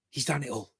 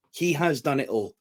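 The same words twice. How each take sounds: First: Said in the usual way. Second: "He has" spelled out with weight; emphatic restatement. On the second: Real, not acted. Fan insisting on a wrestler's career, emphatic. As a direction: lean on "He has", each word separate.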